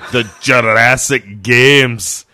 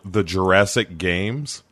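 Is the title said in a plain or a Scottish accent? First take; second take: Scottish; plain. First: It is said in a put-on Scottish accent. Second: It is said in the speaker's plain accent.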